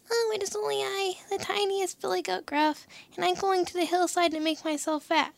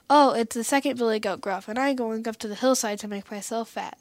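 First: High-pitched tiny billy goat; small voice. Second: Lightly voiced middle goat, near natural pitch; not such a small voice. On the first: Tiniest billy goat answering the troll under the bridge, small high voice. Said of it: "with such a small voice". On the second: Second billy goat answering the troll, lightly voiced, not so small. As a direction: answer more firmly, as a slightly bigger goat. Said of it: "who hadn't such a small voice". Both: A narrator's reading.

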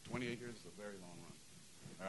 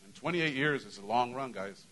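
First: Soft, slow and choked up; getting emotional. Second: Said in the usual way. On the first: Real, not acted. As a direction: let the feeling catch in your throat, much softer and slower. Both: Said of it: "I'm gonna get all emotional now".

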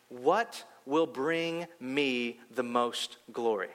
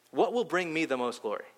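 First: Slow, solemn, set-apart voice of God. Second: Said in the usual way. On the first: Retold or imitated. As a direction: let each word fall slowly like a voice from above. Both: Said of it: "I heard God say".

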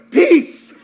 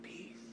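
First: Sudden high, loud shout; called-out peace. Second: Barely audible whisper; under the breath. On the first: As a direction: blurt it out loudly, high-pitched. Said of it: "I just went". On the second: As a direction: say it very softly to yourself. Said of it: "under my breath". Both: Retold or imitated.

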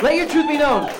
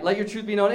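First: "truth" punched much higher and louder; rallying slogan. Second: Said in the usual way. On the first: Acted. Host shouting his catchphrase at the audience, rallying. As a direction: belt the catchphrase to the crowd.

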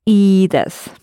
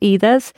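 First: "Ii desu" with the first E held long. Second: "Ii desu" with a short, quick first E. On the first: Teacher correcting the learner, "Ii desu" with a long E. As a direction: stretch the E of "Ii" before "desu". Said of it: "it's a long E". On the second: Teacher showing the mistake, "Ii desu" with a short E. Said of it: "it's a long E. It's not". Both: Shown as a demonstration.

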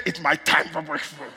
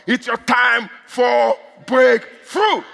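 First: Said in the usual way. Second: Slow, word-by-word preacher's shout; drawn-out proclamation. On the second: Real, not acted. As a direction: stretch each word and punch "breakthrough". Proclaims it to congregation.

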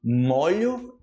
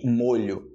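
First: "Molho" with open O, as maw-lyo; slow, open O in "Molho". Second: "molho" with closed O, as moh-lyo; slow, tight rounded O in "molho". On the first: Teacher contrasting verb with noun, open O in "Molho". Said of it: "E molho de molhar". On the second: Teacher contrasting noun with verb, closed O in "molho". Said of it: "pra você comer na". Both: Shown as a demonstration.

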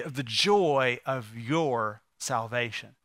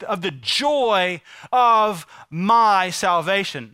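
First: Slow, low, with YOUR drawn out and set apart; stress on YOUR. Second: Slow, forceful, drawn-out MY; stress on MY. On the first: Preacher corrects David's words to God, slow stress on YOUR. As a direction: drop low and linger on YOUR before a pause. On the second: Preacher shows the misquote of David, heavy stress on MY. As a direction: stretch the phrase and land hard on MY. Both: Shown as a demonstration. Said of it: "No, that's not what he said".

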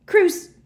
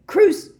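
First: High, very loud burst; yelled curse. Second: Sharp high shout, cut short; yelled curse. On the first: Harry trying the curse a second time, yelled. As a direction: yell the curse in one short blast. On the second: Harry cursing Snape, yelled. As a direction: fire the curse out at full pitch. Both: A narrator's reading. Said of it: "yelled Harry for the second time".

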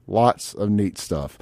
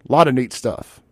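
First: Slow, softer, lower delivery; slow emphatic repeat. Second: Said in the usual way. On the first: Real, not acted. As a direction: let each word sink in, slowly.

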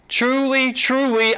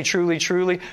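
First: "Truly, truly" lifted high with weight; "Truly, truly" said higher and stressed as a call to listen; emphatic "Truly, truly". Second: Said in the usual way. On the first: Shown as a demonstration. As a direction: lean hard on "Truly, truly" to grab attention. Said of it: "That's an extra emphasis added in there". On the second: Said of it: "pay attention to that".

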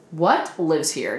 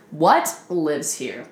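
First: "What" hit slow, like a thing not a person; stress on what. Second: "What" stressed, slow and drawn out. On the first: Retold or imitated. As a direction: lean on "What" slowly. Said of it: "you'd be like". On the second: Shown as a demonstration. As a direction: slowly punch "What" again, as if naming a creature. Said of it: "Not even who lives here".

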